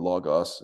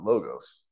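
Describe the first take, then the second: First: It is pronounced the Greek way. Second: It is pronounced the usual English way. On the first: "it would be logos in Greek" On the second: "in English, most people pronounce it logos"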